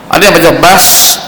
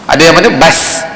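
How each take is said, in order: Both takes have the same delivery.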